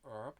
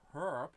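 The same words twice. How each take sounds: First: The word begins with a vowel, H silent. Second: The word begins with an audible H sound. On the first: This is how the speaker believes it is said. "even in English the H is silent" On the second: This is how many people say it lately. "lately I hear a lot of people pronounce it"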